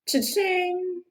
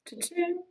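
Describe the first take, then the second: First: It is said at a louder volume. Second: It is said at a softer volume.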